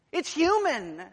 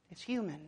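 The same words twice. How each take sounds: First: It's human with human hit high and loud, falling hard; loud stress on human. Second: Said in the usual way. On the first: Shown as a demonstration. Preacher declaring the beast mere man, human punched loud. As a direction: bang out the word human. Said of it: "he's saying it's not divine". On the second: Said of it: "It's impossible".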